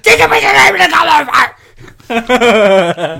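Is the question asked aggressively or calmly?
aggressively. It is asked loudly and aggressively.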